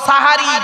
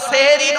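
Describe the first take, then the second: First: The first syllable has an 'a' vowel. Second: The first syllable has an 'e' vowel. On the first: It means the meal at the end of the night. The speaker calls it right. "শব্দটা হলো সাহারি। দন্তেশ্বয় একার নয়, দন্তেশ্বয় আকার।" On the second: It would point to a word meaning magic. The speaker calls it wrong. "শব্দটা সেহেরি নয়"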